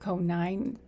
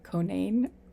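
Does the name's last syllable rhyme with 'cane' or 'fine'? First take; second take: fine; cane. First: The last syllable rhymes with 'fine'. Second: The last syllable rhymes with 'cane'. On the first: The speaker calls it wrong. "I think I said it more like Conine before" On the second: The speaker calls it right. "I hope I'm getting it right this time that it's like"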